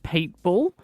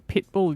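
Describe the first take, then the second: First: The first vowel is long, like 'peet'. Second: The first vowel is short, like 'pit'. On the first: The speaker calls it wrong. "you say Pete, like [name]" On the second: The speaker calls it right. "you don't say Pitbull"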